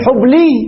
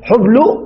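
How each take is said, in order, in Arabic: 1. تنتهي الكلمة بصوت ياء. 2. تنتهي الكلمة بصوت واو. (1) "قلبنا ماذا ياء" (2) "قلبنا ماذا واو"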